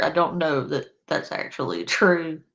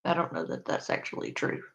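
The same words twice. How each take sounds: First: Said in the usual way. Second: Low, quick mumbled aside; quiet mumble. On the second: Shown as a demonstration. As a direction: mutter it under the breath, fast. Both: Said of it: "I just wanna be clear".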